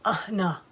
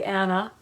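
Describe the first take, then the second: First: The name is voiced from the back of the throat. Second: The name is said plainly, without throat sound. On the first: "the way she said it is in the back of the throat" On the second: "Or you can say Anna"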